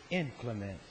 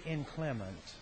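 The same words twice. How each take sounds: First: "inclement" with the stress moved to the first syllable, IN-cle-ment; alternative pronunciation. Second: Said in the usual way. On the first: Shown as a demonstration. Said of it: "some people say inclement".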